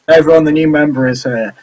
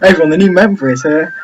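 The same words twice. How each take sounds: First: It is said flatly, with little energy. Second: It is said louder, with more energy.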